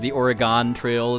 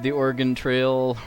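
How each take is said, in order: First: Oregon is said with a Wisconsin regional accent. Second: Oregon is said in the usual standard way.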